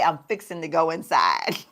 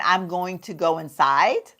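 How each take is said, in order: First: "I'm fixing to go inside" said easy and country; Southern phrasing. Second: Said in the usual way. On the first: Shown as a demonstration. Showing how family back home says "fixing to", lightly Southern. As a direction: drop into home-folks Southern talk on "fixing to". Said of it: "we will say". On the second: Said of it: "instead of saying".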